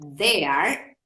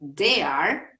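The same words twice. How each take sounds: First: The word begins with a soft th sound. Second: The word begins with a hard d sound. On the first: It means over there. The speaker calls it right. "si lo decimos there, ¿sí? Estamos diciendo allá" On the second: It sounds like the verb meaning to dare. The speaker calls it wrong. "estamos cambiando el significado porque la palabra dare es un verbo"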